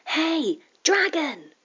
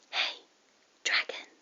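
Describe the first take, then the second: First: It is shouted as loud as possible. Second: It is said very softly, in a whisper.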